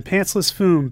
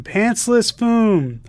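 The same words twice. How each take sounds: First: Said in the usual way. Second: "Pantsless Foom" said slowly, higher, "Foom" stretched and falling; milk the punchline, slow and high; slow higher drawn-out repeat. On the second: Retold or imitated. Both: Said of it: "Us again".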